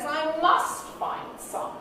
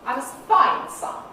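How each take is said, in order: First: The main stress falls on the word must. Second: The main stress falls on the word find. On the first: The need to find some is real and urgent. "The emphasis now on the very real need to find some" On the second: A neutral statement about needing to find some. "The nucleus is on the last content word"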